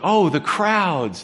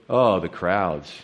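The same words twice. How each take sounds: First: It is said in a warm, caring tone. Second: It is said in a weary, annoyed tone. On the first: The crowds are seen with compassion. "It's the same word, but said in different ways" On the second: The crowds are seen as a nuisance. "Gee, what do they want now?"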